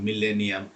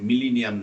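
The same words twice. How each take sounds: First: মিলেনিয়াম with an e in the second syllable; correct pronunciation. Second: মিলিনিয়াম with an i in place of e; mispronunciation. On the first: Teacher models the spelling-true word for exam students, correct pronunciation. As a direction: say মিলেনিয়াম with 'le', not 'li'. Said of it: "উচ্চারণ যদি ভুল করেন". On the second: Teacher shows students the misspelling-causing error, mispronunciation. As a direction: say মিলিনিয়াম with 'li' as second syllable. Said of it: "মিলিনিয়াম যে উচ্চারণ যদি ভুল করেন". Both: Shown as a demonstration.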